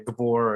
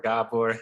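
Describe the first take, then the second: First: The name is said with English pronunciation. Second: The name is said with Hungarian pronunciation.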